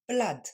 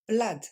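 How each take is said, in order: Both takes have the same delivery.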